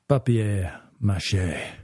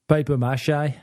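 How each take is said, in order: First: The first word has a French pronunciation. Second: The first word sounds like English paper. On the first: "give a proper example of how it sounds" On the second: "it probably sounds more to you like"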